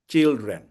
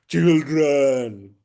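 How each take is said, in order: First: The word is said in a plain, ordinary way. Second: The word is said in a spooky, scary way. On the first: The speaker calls it wrong. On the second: The speaker calls it right.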